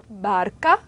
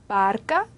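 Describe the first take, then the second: Both takes have the same delivery.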